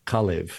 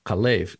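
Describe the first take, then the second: First: Kalev with the accent up front; tentative Kalev, weighted on its opening syllable; stress on first syllable. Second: Kalev with the accent on the second syllable; stress on second syllable. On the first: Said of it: "I would have thought". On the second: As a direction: lean on the last syllable of Kalev. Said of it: "the accent on the second syllable". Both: Shown as a demonstration.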